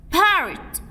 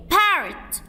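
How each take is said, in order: Both takes have the same delivery.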